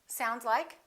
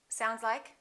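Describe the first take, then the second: No difference in how they are said.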